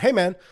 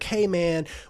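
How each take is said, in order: First: It is said in a tough, serious voice. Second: It is a whiny impression of snotty kids.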